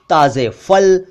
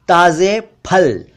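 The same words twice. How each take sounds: First: फल said with a hissed f; mispronounced ph as f. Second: Slow, फल as p-hal; aspirated ph. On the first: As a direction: say फल as "fal". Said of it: "जबकि असल में ये इस तरह बोलना चाहिए". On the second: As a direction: pop the lips on फल. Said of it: "ये इस तरह बोलना चाहिए". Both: Shown as a demonstration.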